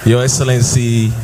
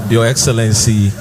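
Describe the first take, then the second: No difference in how they are said.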